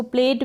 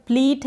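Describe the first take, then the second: First: "प्लेट" with an "ay" vowel; "प्लेट" rhyming with "late"; alternative pronunciation. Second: "प्लीट" with a long ee; long "ee" in the middle of "प्लीट"; correct pronunciation. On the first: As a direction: say "प्लेट" like English "plate". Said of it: "इसको प्लेट भी कहीं पर आप pronounce कर दें". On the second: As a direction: say "प्लीट" to rhyme with "treat". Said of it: "है इसका correct pronunciation". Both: Shown as a demonstration.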